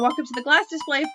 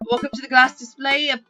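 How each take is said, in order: First: It is spoken in the speaker's normal accent. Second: It is spoken in a British accent.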